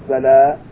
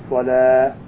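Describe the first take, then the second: The two takes are said the same way.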